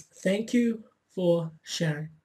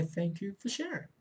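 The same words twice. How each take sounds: First: Slowly spelling out "thank you for sharing"; slow emphatic. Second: Much softer, gently saying "Thank you for sharing"; soft calm acknowledgement. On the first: Coach repeating the magic words slowly for viewers. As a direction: draw out each word of "thank you for sharing". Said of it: "again, it's". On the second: Coach showing how to answer the inner voice, softly and calmly. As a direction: say "Thank you for sharing" quietly, like soothing a child. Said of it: "Turn to it and say". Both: Shown as a demonstration.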